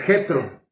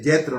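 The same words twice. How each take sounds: First: The J is a raspy Spanish throat sound. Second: The J sounds like an English J. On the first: The speaker calls it right. "nosotros la J no la pronunciamos así, es Jetro" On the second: The speaker calls it wrong. "Lo pronuncian así como, como si fueran gringos"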